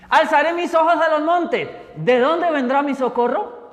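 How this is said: It ends with a rising, questioning tune.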